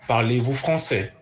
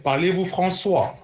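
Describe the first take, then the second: First: FRANÇAIS ending in an open "eh"; teacher modelling "français" with a final eh sound; correct French. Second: "François" ending in "swah" instead of "seh"; common mispronunciation. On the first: Shown as a demonstration. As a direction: say "français" as frahn-SEH, never swah. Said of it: "Not François". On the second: Retold or imitated. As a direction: imitate learners saying "François" for français, pitched up. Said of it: "I heard many people say".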